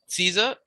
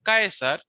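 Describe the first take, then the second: First: The word is pronounced the English way. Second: The word is pronounced the Latin way. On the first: "So Caesar in English" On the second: "but Caesar"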